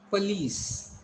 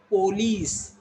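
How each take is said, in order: First: Police, said puh-LEES with a weak first vowel; correct pronunciation. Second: Police, said POH-lees with a full O; wrong pronunciation. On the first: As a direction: say "police" as puh-LEES, long falling second syllable. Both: Shown as a demonstration. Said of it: "Don't call it police".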